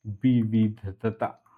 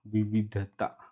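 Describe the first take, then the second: First: विविधता drawn out very slowly; विविधता at dictation pace, each syllable held. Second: Said in the usual way. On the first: Shown as a demonstration. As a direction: sound out विविधता in separate slow syllables. Teacher spells out term slowly.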